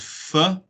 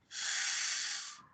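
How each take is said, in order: First: An extra vowel follows the f sound. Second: The f sound is said alone. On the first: The speaker calls it wrong. "which is is incorrect" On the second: The speaker calls it right. "It's f"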